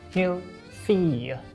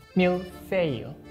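Both takes have the same delivery.

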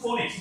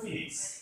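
First: The first vowel sounds like 'foe'. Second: The first vowel sounds like 'fee'. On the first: The speaker calls it wrong. "আমরা বলছি ফোনিক্স" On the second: The speaker calls it right. "উচ্চারণ হবে ফিনিক্স"

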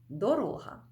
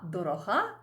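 First: The stress is on the second syllable. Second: The stress is on the third syllable. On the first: It means a road or path. "Дорога, шлях" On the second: It means dear or precious. "Дорога – це прикметник"

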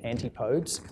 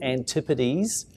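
First: The word ends without a clear z sound. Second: The word ends with a clear z sound. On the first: The speaker calls it wrong. "A lot of people mispronounce it in New York" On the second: The speaker calls it right. "with a Z on the end"

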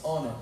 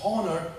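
First: The word starts with a vowel, H silent. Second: The word starts with an audible H sound. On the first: The speaker calls it right. "it's honor. But there's an H, but you don't pronounce it" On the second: The speaker calls it wrong.

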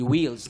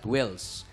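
First: The vowel is a long ee sound. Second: The vowel is a short i sound. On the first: The speaker calls it right. "It should be wheels, Long E" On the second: The speaker calls it wrong. "not wills"

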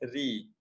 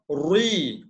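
First: The r sound is light and thin. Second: The r sound is heavy and thick. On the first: The speaker calls it right. "Kita sebut ri" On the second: The speaker calls it wrong. "Kita tak sebut ri. Ri tu tebal"

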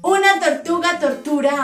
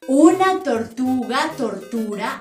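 First: It is spoken at the fastest pace. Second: It is spoken at a medium pace. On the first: "Más rápido" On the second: "Más rápido"

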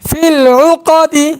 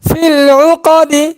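Both takes have the same delivery.

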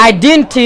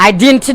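Both takes have the same delivery.

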